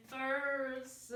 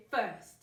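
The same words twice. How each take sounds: First: "first" broken into separate sounds with added vowels; slow, wrongly segmented "first"; over-split syllables. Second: Said in the usual way. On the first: Shown as a demonstration. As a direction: draw "first" out as fur-s-tuh. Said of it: "We don't hear first". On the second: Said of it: "We just hear first".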